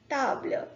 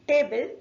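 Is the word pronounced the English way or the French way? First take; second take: French; English. First: It is pronounced with French sounds, soft T. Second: It is pronounced with English sounds. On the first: "In French we say table" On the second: "in English we say table"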